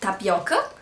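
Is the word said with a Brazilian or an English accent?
Brazilian. It is said with a Brazilian Portuguese accent.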